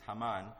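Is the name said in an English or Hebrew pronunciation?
Hebrew. The name is said in a Hebrew pronunciation.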